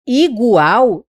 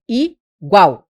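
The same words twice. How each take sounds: First: "Igual" wrongly split into syllables; teacher shows the wrong split of "Igual". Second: "igual" said slowly as one syllable group; slow together. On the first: Teacher demonstrates wrong split of "Igual" to students. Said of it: "não é igual". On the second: Teacher shows correct slow "igual" to students. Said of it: "não é igual, é igual". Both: Shown as a demonstration.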